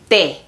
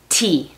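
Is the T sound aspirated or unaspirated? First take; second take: unaspirated; aspirated. First: The T is released without a puff of air. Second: The T is released with a puff of air. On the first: "Nuestra T también es muy diferente" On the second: "En inglés, cuando dices la letra T, echas aire"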